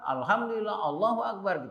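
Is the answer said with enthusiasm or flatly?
enthusiasm. It is said with lively enthusiasm.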